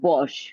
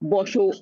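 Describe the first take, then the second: First: The word ends on the consonant, no final vowel. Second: The word ends with an added final o vowel. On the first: It is a casual command to sit. "আমি যে এটা বস বোঝাচ্ছি" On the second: The inherent vowel is taken as pronounced. "এর সাথে যদি অটা আমি ধরে নেই তাহলে এটার উচ্চারণটা হবে বসো"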